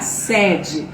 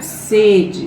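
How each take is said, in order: First: The first vowel is an open e sound. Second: The first vowel is a closed e sound. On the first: It means a company's main office. "O som do primeiro E é aberto" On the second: It means a wish to drink water. "O som do primeiro E, ele é o quê? Ele é fechado"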